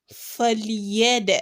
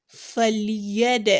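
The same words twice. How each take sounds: Both takes have the same delivery.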